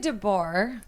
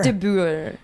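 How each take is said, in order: First: The name is said with an English-style pronunciation. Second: The name is said with a Dutch-style pronunciation. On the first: This is how the speaker herself says it. "I say DeBoer" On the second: This is how people in the Netherlands say it. "they say like, De Boer"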